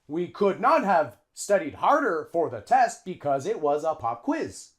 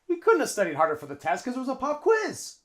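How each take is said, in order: First: The sentence is said slowly with full words. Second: The sentence is said quickly with linked words.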